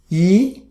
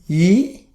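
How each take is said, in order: First: The pitch rises from mid to high. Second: The pitch rises from mid to high.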